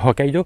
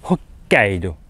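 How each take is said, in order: First: The k sound in the middle is short. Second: The k sound in the middle is held long. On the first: The speaker calls it wrong. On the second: The speaker calls it right. "prolonger la lettre qui suit"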